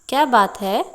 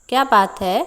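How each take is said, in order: The two takes are said the same way.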